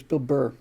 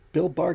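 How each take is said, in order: First: "Bill Burr" with "Burr" like burr, an r-coloured vowel; corrected name. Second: "Bill Barr" said with "Barr" like bar; wrong name. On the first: Shown as a demonstration. Correcting the slip, "Burr" said like burr. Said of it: "I always get that backwards". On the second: Real, not acted. Crediting the comedian, slip saying "Barr" like bar. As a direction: say "Barr" rhyming with car by mistake. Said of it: "I said Bill Barr, didn't I?".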